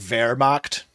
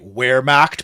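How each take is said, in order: First: It starts with a German V sound. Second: It starts with an English W sound.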